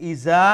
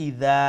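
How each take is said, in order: First: "iza" with a buzzing z; wrong z sound. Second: "ida" with a soft d; soft dal. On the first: Teacher contrasting the wrong z for students. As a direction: say "iza" with a z in the middle. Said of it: "there's a difference between iza and the ida". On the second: Teacher giving students the right soft dal. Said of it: "pronounce it with a softer tone". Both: Shown as a demonstration.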